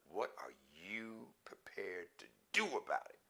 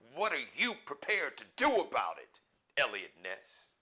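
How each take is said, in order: First: It is said calmly, with less force. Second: It is said intensely, with more force.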